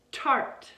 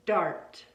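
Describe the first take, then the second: First: Tart with a breathy t at the start; aspirated t. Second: Dart with a voiced d and no puff of air; dart, d voiced with no breath. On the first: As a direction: puff of air on the t of tart. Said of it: "with that t sound, it's voiceless". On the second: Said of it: "with that d sound, it's voiced". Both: Shown as a demonstration.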